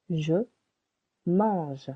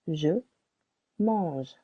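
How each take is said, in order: Both takes have the same delivery.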